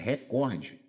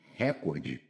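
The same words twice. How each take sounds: First: The stress is on the second syllable. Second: The stress is on the first syllable. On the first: The speaker calls it right. "é recorde, é paroxítona" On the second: The speaker calls it wrong. "Não é recorde"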